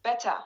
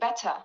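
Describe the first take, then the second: First: The middle T is a full, crisp T. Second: The same.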